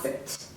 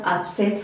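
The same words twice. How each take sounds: First: The stress is on the first syllable. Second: The stress is on the second syllable. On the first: It names a thing, a stomach illness. "I'm putting a lot of emphasis on the first syllable" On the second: It names an action someone did. "Second part"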